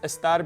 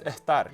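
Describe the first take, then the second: First: The s before the t is a clear s. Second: The s before the t sounds like h.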